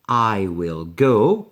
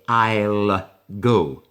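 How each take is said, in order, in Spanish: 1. Will se dice como una palabra completa y separada. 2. Will se reduce a un sonido L.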